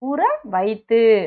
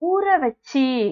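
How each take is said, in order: First: The second word is said fully as vaithu. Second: The second word is reduced to vachi. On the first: This is the formal written form. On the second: This is the casual spoken form.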